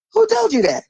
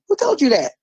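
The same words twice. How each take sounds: First: Much higher, outraged repeat of the question; indignant challenge. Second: Said in the usual way. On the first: Real, not acted. Challenging her listeners, outraged and high. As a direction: fire the question back, incredulous.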